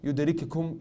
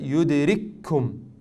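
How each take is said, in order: First: The two k sounds are pronounced separately. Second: The two k sounds merge into one doubled k. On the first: The speaker calls it wrong. "You do not say يدرككم, يدرككم, you don't do this" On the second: The speaker calls it right. "you do إدغام"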